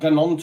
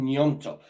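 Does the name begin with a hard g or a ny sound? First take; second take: hard g; ny. First: The name begins with a hard g sound. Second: The name begins with a ny sound. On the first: The speaker calls it wrong. "It's not Ganonto or all like that" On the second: The speaker calls it right. "It's an Nyonto"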